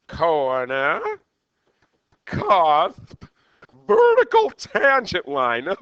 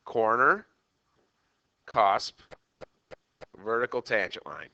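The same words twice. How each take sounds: First: Mad Hatter impersonation. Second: Said in the usual way. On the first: Acted. Teacher repeats the list to the class as the Mad Hatter. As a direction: ham up a manic Hatter, stretching each word. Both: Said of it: "that was my Mad Hatter impersonation".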